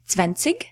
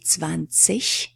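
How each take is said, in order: First: The ending is said with a hard g. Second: The ending is said with an ich sound. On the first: It is a regional pronunciation. "in some regions of Germany, that's exactly how they pronounce the ig endings, ig" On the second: It is the standard pronunciation. "So the standard would be"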